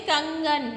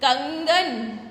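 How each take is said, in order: First: कंगन with the कं clearly nasal, air through the nose; nasal anusvara. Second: Said in the usual way. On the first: Shown as a demonstration. Teacher shows children how to say कंगन, nasal. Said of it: "नाक से बोलेंगे". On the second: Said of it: "हम कैसे बोलेंगे?".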